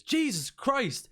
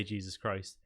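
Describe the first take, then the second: First: High, drawn-out shocked outburst; shocked exclamation. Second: Said in the usual way. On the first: Acted. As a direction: cry out in appalled surprise. Shopkeeper reacts to filthy customer.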